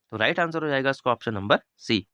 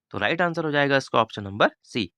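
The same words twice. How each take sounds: The two takes are said the same way.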